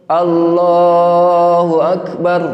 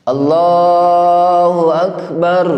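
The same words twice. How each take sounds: The two takes are said the same way.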